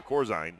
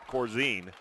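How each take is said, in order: First: Corzine ending like "zine"; corrected name pronunciation. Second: Corzine ending like "zeen"; mistaken name pronunciation. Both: Real, not acted.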